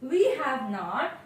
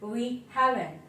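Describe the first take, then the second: First: Have and not are said as separate full words. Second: Have and not are merged into one contracted word. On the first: "We have not is pronounced as" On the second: "is pronounced as we haven't"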